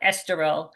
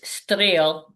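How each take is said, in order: First: The name is said with every syllable pronounced. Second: The name is said in a short, clipped form. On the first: This is how outsiders say it. The speaker calls it wrong. "people call it Esterol ... that's not how you do it" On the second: This is how locals say it. The speaker calls it right. "Isterol is is Streel"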